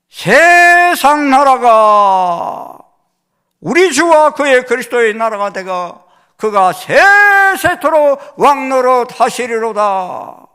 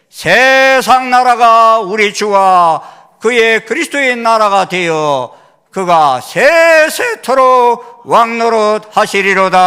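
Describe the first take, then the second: First: It is read dramatically, like a voice actor. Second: It is read plainly, without expression.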